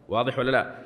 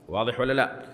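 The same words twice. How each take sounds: No difference in how they are said.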